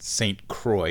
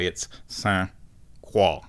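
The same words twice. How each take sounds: First: Croix said as kroy, English style; English Saint Croix. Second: Croix said the French way, as kwa; French Saint Croix. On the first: Her rejected English take on Saint Croix, kroy. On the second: Correcting herself to the French Saint Croix, kwa. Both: Shown as a demonstration. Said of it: "it's not Saint Croix".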